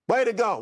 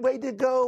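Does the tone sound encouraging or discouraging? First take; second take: discouraging; encouraging. First: It is said in a cold, discouraging tone. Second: It is said in a warm, encouraging tone.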